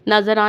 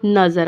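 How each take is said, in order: First: नज़रा with "aa" after the r; wrong vowel ending. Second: नज़र ending on r; stopped ending. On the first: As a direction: finish नज़रा on an open "raa". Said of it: "नज़रा नहीं पढ़ना". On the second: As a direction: drop the final vowel in नज़र. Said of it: "नज़र आएगा". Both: Shown as a demonstration.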